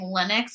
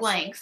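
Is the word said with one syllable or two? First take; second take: two; one. First: The word is said as two syllables. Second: The word is said as one syllable. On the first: The speaker calls it wrong. "I was so confused when you kept on saying Linux" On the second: The speaker calls it right. "It's Lynx"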